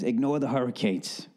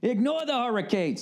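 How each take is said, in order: First: Said in the usual way. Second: High-pitched mock hype shout; over-the-top high yell; ear-blasting holler. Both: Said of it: "Sorry, just blew out yours".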